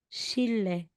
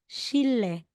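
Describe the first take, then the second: First: The middle consonants are pronounced as a double l. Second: The same.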